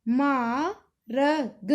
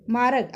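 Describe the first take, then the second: First: Very slow, letters pulled apart; slowed, sound by sound. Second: Said in the usual way. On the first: Shown as a demonstration. Teacher spelling a word for a pupil, very slow. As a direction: stretch each letter out for the learner. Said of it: "हमने लिखना मा". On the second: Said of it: "अब जैसे बड़ा आ गया".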